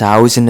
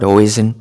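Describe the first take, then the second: First: The first vowel sounds like 'ow'. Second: The first vowel sounds like 'oy'. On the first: The speaker calls it right. "it's Housen" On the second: The speaker calls it wrong. "it's not Hoisen. We've been saying it incorrectly"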